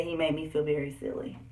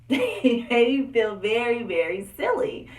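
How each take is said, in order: First: Said in the usual way. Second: Louder, slow, laughing emphasis; laughing retelling. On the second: Real, not acted. Telling viewers how dad embarrassed her, laughing.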